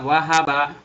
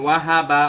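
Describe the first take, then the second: The two takes are said the same way.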